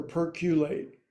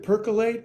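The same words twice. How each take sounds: First: "perculate" with a "kyoo" in the middle; variant pronunciation. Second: "percolate" with a plain "kuh" in the middle; standard pronunciation. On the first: Yoga teacher wondering aloud how to say it, "perculate" pronounced PER-kyoo-late. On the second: Yoga teacher wondering aloud how to say it, "percolate" pronounced PER-kuh-late. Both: Shown as a demonstration. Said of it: "Is it percolate or perculate".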